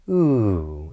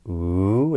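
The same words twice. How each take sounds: First: The pitch falls steadily through the sound. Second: The pitch rises steadily through the sound. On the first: It marks a statement, command or sentence end. "this downward intonation would be" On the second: It marks a question or an item in a list. "a rising intonation pattern would be"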